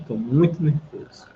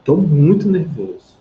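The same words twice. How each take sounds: First: Said in the usual way. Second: "muito" pushed louder and stronger, "tô muito nervoso" with weight; intensified example. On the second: Shown as a demonstration. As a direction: lean hard on "muito" to show the intensity. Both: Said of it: "se eu fizer com essa expressão".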